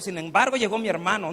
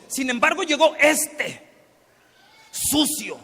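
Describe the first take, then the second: First: Said in the usual way. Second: Louder, higher, scornful "llegó este, sucio"; bitter brother sneering at the returned sibling; contemptuous. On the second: Acted. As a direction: spit out "sucio" with disgust. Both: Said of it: "No, dice".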